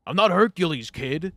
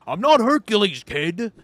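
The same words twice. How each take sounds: First: Put-on gruff old customer bellowing, higher and louder; barking like a cranky old man at the cashier; grumpy old man. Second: Much higher, louder repeat of the gripe; angrier old man shout. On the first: Old man scolding the young cashier, loud and gruff. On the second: Retold or imitated. Old man shouting again at the cashier who ignored him. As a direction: yell it now, losing patience.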